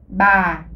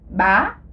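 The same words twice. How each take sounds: First: The pitch falls slowly and is drawn out. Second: The pitch rises. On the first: "C'est le ton euh, descendant, traînant, descendant" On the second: "le ton montant avec l'accent aigu"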